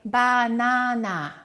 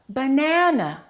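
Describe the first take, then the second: First: All three vowels are full and equal. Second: Only the middle vowel is full; others are reduced. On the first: The speaker calls it wrong. "pronounce every vowel equally" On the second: The speaker calls it right. "the second syllable is stressed, so we would say it like this"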